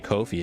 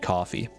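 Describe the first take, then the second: First: The word is said as Ko-fi. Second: The word is said as coffee. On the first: The speaker calls it wrong. "I don't know why I want to say Ko-fi" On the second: The speaker calls it right. "it definitely should just be coffee"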